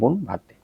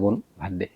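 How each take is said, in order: First: It is shouted. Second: It is said at a normal volume.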